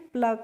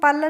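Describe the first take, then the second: First: P and l are joined with no vowel between. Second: A short vowel is inserted between p and l. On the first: The speaker calls it right. "पी एल का pronunciation हम करते हैं प्ल करके" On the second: The speaker calls it wrong. "इसको हम पल नहीं करेंगे"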